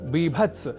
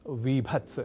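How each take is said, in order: First: The word begins with a b sound. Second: The word begins with a v sound. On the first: The speaker calls it right. "बीभत्स रस न की" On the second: The speaker calls it wrong. "न की विभत्स"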